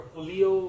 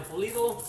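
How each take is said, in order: First: Pulido in a Spanish accent, tapped r-less vowels pure. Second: Said in the usual way. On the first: Shown as a demonstration. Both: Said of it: "I'm using my Spanish accent to try to say the Pulido".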